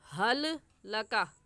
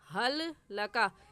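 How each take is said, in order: No difference in how they are said.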